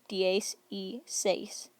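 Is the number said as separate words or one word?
separate words. It is said as three separate words. "You can hear the spaces here"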